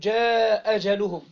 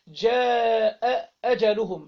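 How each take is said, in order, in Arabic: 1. تُسمع همزة واحدة فقط بين الكلمتين. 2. تُسمع همزتان بين الكلمتين. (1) "فأسقطت إيه همزة من الاتنين" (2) "أدي همزة وهمزة"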